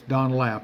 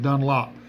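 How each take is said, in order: First: The second syllable sounds like 'lap'. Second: The second syllable sounds like 'lop'. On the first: The speaker calls it right. "but it's Dunlap. It's, it's an A there" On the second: The speaker calls it wrong. "some people pronounce it Dunlop"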